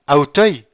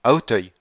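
First: High, very loud startled echo; startled exclamation. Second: Said in the usual way. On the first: A narrator's reading. Villefort hearing the count's house is in Auteuil, crying out. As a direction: cry the name back in shock. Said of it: "s'écria Villefort".

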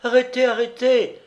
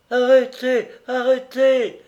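First: "Arrêtez, arrêtez" cried out much higher and louder; a wife shouting to stop the cart; crying out. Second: "arrêtez" moaned high and louder, winded from running; a wife gasping after running across the fields; breathless moan. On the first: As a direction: call "Arrêtez" across the fields, voice up high. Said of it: "s'écria une voix de femme". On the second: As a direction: plead "Arrêtez" out of breath, arms outstretched. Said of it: "gémit-elle encore, à bout d'haleine". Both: Acted.

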